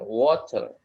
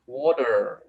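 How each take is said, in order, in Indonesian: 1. Bunyi t-nya tegas dan jelas. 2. R di akhir kedengarannya tebal dan kuat. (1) "Kalau British dia T-nya jelas gitu kan" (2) "kalau American R-nya itu tebel"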